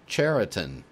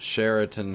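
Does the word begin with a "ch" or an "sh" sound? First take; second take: ch; sh. First: The word begins with a ch sound. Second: The word begins with an sh sound. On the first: The speaker calls it right. "It should be like Churchill" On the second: The speaker calls it wrong. "not Sheraton Hotel Chain"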